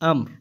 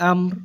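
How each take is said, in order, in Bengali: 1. শব্দটি শুধু r ধ্বনি দিয়ে শেষ হয়। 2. শব্দটি শুধু r ধ্বনি দিয়ে শেষ হয়।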